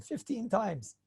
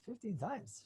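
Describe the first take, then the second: First: Said in the usual way. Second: Hushed, voiceless whisper; whispered aside. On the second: Acted. Speaker reacting to fifteen listens of his shiur, whispered aside. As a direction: whisper it to yourself in wonder.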